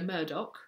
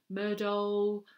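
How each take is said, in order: First: The name ends with a hard k sound. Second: The name ends without a hard k sound.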